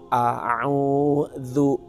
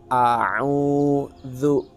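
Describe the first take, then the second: No difference in how they are said.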